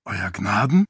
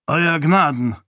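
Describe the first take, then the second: First: Puzzled question, rising at the end; surprised. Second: Raised, firm salute to a lord; respectful greeting. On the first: A narrator's reading. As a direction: ask it in surprise, lifting the last word. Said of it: "Teret blickte überrascht auf". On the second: Acted. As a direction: greet your lord formally, voice lifted. Priest greets his lord respectfully.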